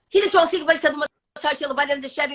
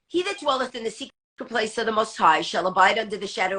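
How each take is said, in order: First: It is said fast. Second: It is said slowly.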